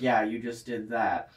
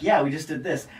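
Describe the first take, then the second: First: Slow, straight-faced imitation; deadpan, imitated. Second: Mildly upbeat imitation of a proud artist; happy, imitated. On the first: Audio engineer answering the happy artist, slow deadpan. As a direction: draw it out drily, unimpressed. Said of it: "a really straight face and is like". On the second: Artist showing off his song to the engineer, mildly happy. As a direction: quote him pleased with himself. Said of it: "he's, like, all happy talking about it".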